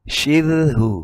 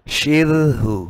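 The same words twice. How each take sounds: Both takes have the same delivery.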